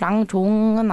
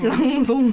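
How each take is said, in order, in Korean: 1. 두 번째 음절은 j 소리로 시작해요. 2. 두 번째 음절은 s 소리로 시작해요. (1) "발음이 랑종은 아닌 것 같고" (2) "태국 현지 본토가 랑송이라고 하더라고요"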